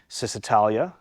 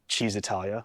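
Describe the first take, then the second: First: The name begins with an s sound. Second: The name begins with a ch sound. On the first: The speaker calls it wrong. "which I know I'm pronouncing wrong" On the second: The speaker calls it right. "which is technically the correct way to, to pronounce it"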